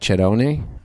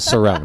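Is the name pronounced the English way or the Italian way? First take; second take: Italian; English. First: The name is pronounced the Italian way. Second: The name is pronounced the English way. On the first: This is how it is said in Italy. "In Italy, it's it's truly pronounced like" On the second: This is the whitewashed everyday version. "I'll stick with"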